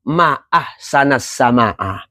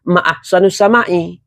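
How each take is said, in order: First: The endings use a vowels throughout. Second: The endings use u and i vowels. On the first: It exclaims how beautiful the sky is. "Tapi kalau kagum" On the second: It asks what is most beautiful in the sky. "apakah yang paling indah di langit?"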